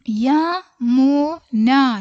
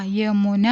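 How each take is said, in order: First: Yamuna stretched slowly, syllable by syllable; very slow drill. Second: Said in the usual way. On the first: Shown as a demonstration. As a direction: draw out Yamuna for beginners. Teacher very slow model word. (Yamuna വളരെ പതുക്കെ നീട്ടി)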